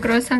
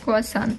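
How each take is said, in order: First: The word starts with a 'kru' sound. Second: The word starts with a 'ku' sound. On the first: The speaker calls it right. "Вместо круассан" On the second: The speaker calls it wrong. "говорит, куасан"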